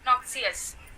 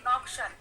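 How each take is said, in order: First: The x is said as 'ks' followed by 'ee'. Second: The x is said as 'ksh', three syllables merged. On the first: "आप इसे ऐसे भी पढ़ सकते हैं" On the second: "अगर एक्स के बाद आई ओ होगा तो हमेशा एक्स को कष्ट पढ़ना है"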